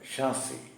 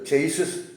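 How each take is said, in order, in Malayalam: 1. ഇത് 'sh' ൽ തുടങ്ങുന്നു, 'ee' ൽ അവസാനിക്കുന്നു. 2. ഇത് 'ch' ൽ തുടങ്ങുന്നു, 's' ൽ അവസാനിക്കുന്നു. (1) "അതിൻ്റെ ഉച്ചാരണം ഷാസി എന്നാണ്" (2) "വർക്ക്ഷോപ്പുകാരൊക്കെ പറയുന്നത് ചെയ്സിസ് എന്നാണ്"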